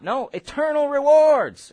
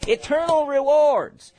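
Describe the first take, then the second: First: Eternal rewards, louder and higher; emphatic. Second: Eternal rewards, slow, louder and higher; emphatic. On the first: Preacher insisting to the congregation, slow and emphatic. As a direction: drive home eternal rewards slowly. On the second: Preacher repeating the point to the congregation, slow and emphatic. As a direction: press Eternal rewards home. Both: Real, not acted. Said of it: "Are you guys getting this?".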